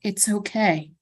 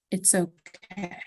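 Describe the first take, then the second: First: Said in the usual way. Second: Softer, slower, trailing off; the voice drifts away, fading softly; fading murmur. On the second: Acted. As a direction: let it fade into nothing. Head voice repeats, fading away.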